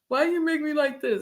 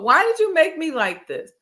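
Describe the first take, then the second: First: It sounds resentful and accusing. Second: It sounds curious and wondering.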